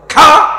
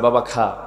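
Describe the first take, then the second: First: It is said sharply and forcefully. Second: It is said softly and tenderly.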